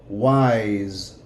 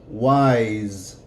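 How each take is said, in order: The two takes are said the same way.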